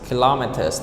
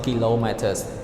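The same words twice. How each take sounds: First: The stress is on the second syllable. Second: The stress is not on the second syllable. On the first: The speaker calls it right. "So the stress is on the second syllable" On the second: The speaker calls it wrong. "not kilometers"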